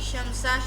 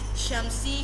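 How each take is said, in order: First: The word ends with an a vowel after s. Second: The word ends with an i vowel after s.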